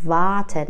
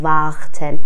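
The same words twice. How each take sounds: First: Warten as "vaaten", the r dropped; long open a in warten with no r heard; silent r. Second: Warten with a harsh throaty r, "vakhten"; wrong pronunciation. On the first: Teacher shows r mid-word before consonant, barely pronounced. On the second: Teacher shows what we don't say, over-pronounced r. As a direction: push a rasped kh-like r into warten. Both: Shown as a demonstration.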